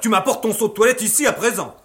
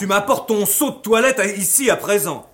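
First: The line is spoken quickly and hurriedly. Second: The line is spoken slowly and clearly. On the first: The speaker calls it wrong. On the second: The speaker calls it right.

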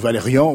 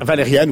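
First: The name is said with a French pronunciation. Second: The name is said with an American pronunciation. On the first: "moi, je le dis à la française" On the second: "je l'ai dit à l'américaine"

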